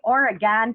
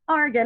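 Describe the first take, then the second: First: It is said with a nasal Western New York sound. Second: It is said the way Oregon locals say it. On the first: The speaker calls it wrong. "we say Oregon Trail ... it's a nasal Western New York thing" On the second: The speaker calls it right. "I was very nice in letting you know it's Oregon"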